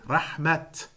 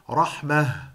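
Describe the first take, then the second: First: The word ends with a clear t sound. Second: The word ends with a soft h sound. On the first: "you pronounce it rahmat" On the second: "you pronounce it rahmah"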